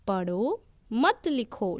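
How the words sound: There is a pause after the first word. Read, but do not write. "जैसे मैं ठहरी, पढ़ो, फिर मैंने बोला मत लिखो"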